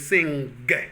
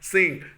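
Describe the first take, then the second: First: The ng is followed by a released g sound. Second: The ng ends without a released g sound. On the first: The speaker calls it wrong. "my teacher taught me to say sing" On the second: The speaker calls it right. "You just say sing, then you get a knock kwa for saying it correctly"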